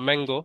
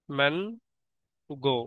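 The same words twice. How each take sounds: First: Said in the usual way. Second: ম্যানগো very slowly, man, long pause, গো; split into syllables. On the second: Shown as a demonstration. Teacher giving a disyllable example, ম্যানগো slowly split as man — গো. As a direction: pull ম্যানগো apart into two separate syllables. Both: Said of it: "এটা হচ্ছে ডাইসিলেবল".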